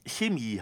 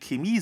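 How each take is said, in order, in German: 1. Das Wort beginnt mit einem weichen CH-Laut. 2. Das Wort beginnt mit einem harten K-Laut. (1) "obwohl es eigentlich Chemie heißt" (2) "wo einige Chemie sagen"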